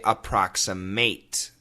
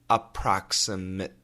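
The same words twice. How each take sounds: First: The final syllable is said with a full vowel. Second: The final syllable is reduced to 'mit'. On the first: It is used as a verb. "If we use the word as a verb, we would say approximate" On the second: It is used as an adjective. "But as a noun, as an adjective, approximate. Mit, mit, mit"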